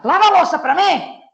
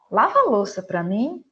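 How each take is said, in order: First: Louder and higher, a scolding order; sharp loud command. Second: Said in the usual way. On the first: Shown as a demonstration. Teacher demos scolding her son to wash dishes, loud. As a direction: bark the order at your son. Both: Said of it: "A entonação muda".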